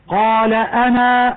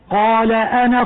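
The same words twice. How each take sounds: First: The word ends in a long vowel. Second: The word ends in a short vowel. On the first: "عند الوقف" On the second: "يجب حذفها لفظا في الوصل"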